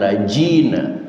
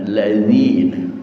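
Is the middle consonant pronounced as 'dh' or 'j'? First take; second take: j; dh. First: The middle consonant sounds like a 'j'. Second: The middle consonant sounds like a 'dh'. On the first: The speaker calls it wrong. "Jangan sampai terdengar bacaan lajina" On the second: The speaker calls it right. "tetap ditahan dalam makhraj ladzina"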